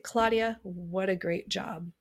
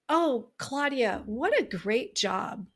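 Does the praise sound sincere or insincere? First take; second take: insincere; sincere. First: The praise sounds cold and insincere. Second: The praise sounds warm and sincere.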